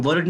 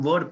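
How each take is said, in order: First: वर्ड with the r rolled in; r sounded. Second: वर्ड with the r dropped; silent r. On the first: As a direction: say वर्ड as "ward", tapping the r before the d. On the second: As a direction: say वर्ड as "wad", no r at all before the d. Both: Shown as a demonstration. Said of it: "लेकिन हमने आर को silent कर दिया".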